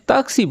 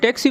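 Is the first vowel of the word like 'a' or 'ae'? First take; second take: a; ae. First: The first vowel is an open 'aa' sound. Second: The first vowel is an English 'ae' sound. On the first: This is the Arabic way of saying it. "ताक्सी बोलते हैं टैक्सी को" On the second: This is the English way of saying it. "टे तो है नहीं अरेबिक में"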